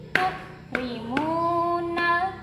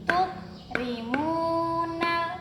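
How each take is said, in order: No difference in how they are said.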